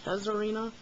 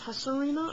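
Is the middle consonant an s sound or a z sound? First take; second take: z sound; s sound. First: The middle consonant is a harsh z sound. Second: The middle consonant is a soft s sound. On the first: The speaker calls it wrong. "I don't like the harsh Z sound" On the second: The speaker calls it right. "I like it"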